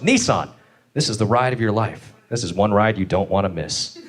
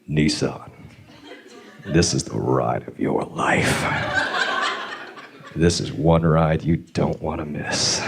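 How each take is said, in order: First: It is said in a plain commercial tone. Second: It is said in a creepy, leering tone.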